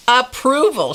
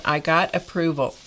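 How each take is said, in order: First: Approval said much higher and louder, falling at the end; mock-proud approval. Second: Said in the usual way. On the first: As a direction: make Approval sound grand and official. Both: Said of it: "she said".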